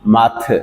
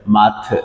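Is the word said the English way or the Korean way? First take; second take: Korean; Korean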